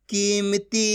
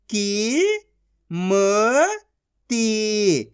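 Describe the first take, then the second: First: Said in the usual way. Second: Slow, each syllable of की-म-ती pulled apart; teacher sounding out a word. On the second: Shown as a demonstration. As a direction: sound out कीमती as की, म, ती with gaps. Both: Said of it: "एक एक अक्षर का उच्चारण करके".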